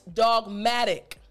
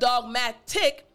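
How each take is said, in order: First: The middle consonant is a soft D sound. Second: The middle consonant is a crisp T sound. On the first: The speaker calls it right. "Actually, it's the D sound" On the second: The speaker calls it wrong. "the pronunciation of this T is not the T sound"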